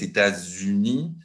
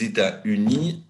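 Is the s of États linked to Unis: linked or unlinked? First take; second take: linked; unlinked. First: The s of États is linked to Unis. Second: The s of États is silent, with no liaison. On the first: This is the modern standard pronunciation. "Et la liaison avec le S" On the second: This was the usual pronunciation before the mid-19th century. "C'était de dire les États-Unis"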